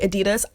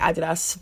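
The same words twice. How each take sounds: First: It is pronounced the American way. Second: It is pronounced the British way. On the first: "Americans say Adidas" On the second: "I'm British, so I'm just going to say Adidas"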